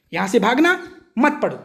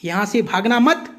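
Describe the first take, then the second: First: "यहाँ से भागना" rising, a clear break, then "मत पढ़ो" falling; pause after भागना. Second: "यहाँ से भागना मत" as one unit, rising on "मत", then stop; pause after मत. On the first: Student twisting the teacher's words, comma pause after "भागना", then "मत पढ़ो". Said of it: "देखो, कॉमा का फर्क हो गया". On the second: Teacher showing the intended comma, "भागना मत" run together, pause after "मत". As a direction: keep "भागना मत" joined and break after "मत". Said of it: "कॉमा देखो यहाँ लगा था". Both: Shown as a demonstration.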